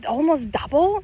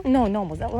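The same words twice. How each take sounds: First: Higher, louder rising disbelief; incredulous question. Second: Said in the usual way. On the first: Real, not acted. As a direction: ask it like you can't believe it. Incredulous question about weight gain.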